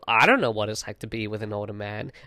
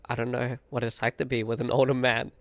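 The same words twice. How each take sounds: First: It sounds dismissive, like a diss. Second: It sounds sincere and innocent.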